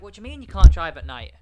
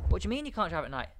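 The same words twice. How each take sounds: First: Incredulous outburst. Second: Said in the usual way. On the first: Retold or imitated. Retold disbelief at warning.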